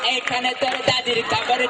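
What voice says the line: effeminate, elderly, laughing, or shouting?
effeminate. It is said in an effeminate put-on voice. "ছেলেও না মহিলাও না"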